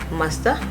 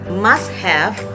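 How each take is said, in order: First: 'Have' is reduced to a short 'a' sound. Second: 'Have' is said in full.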